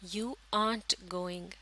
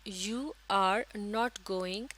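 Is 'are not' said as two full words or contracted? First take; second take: contracted; full. First: 'Are not' is shortened into one syllable. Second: 'Are not' is said as two full words.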